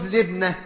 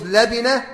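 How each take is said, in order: First: لبنة said "lib-nah", two syllables; kasra then sukun. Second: لبنة said "la-bi-nah", three syllables; fatha then kasra. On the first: Teacher showing the other allowed form, لبنة as libnah. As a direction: say لبنة with "i" after lam and a vowelless ba. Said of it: "وبكسر اللام وسكون الباء أيضًا". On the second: Teacher showing an allowed form of the word, لبنة as labinah. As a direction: say لبنة with "a" after lam, "i" after ba. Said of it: "اللبنة بفتح اللام وكسر الباء". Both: Shown as a demonstration.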